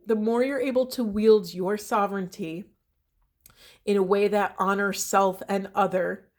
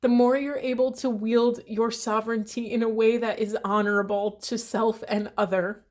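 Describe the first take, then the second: First: Said in the usual way. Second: Voice shaking. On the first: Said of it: "my voice is shaking". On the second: Real, not acted. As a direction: push through the words as tears rise. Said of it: "Sorry, my voice is shaking".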